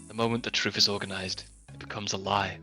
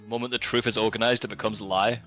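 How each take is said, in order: First: It is said slowly. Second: It is said at normal, faster speed.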